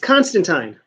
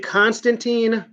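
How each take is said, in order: First: The name is pronounced in a plain English way. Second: The name is pronounced in a Russian-sounding way. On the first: This is how the name should be said. The speaker calls it right. "it's Constantine" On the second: This is how other people say the name. The speaker calls it wrong. "Why would he pronounce it like a Russian?"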